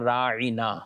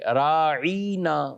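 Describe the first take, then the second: First: The word is said short and plain. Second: The word is stretched and drawn out. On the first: Please show us consideration. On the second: It carries an insulting meaning.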